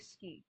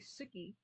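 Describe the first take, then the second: First: The vowel after the s is dropped. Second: The vowel after the s is fully pronounced. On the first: "You can just say ski" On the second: "You don't have to say suki"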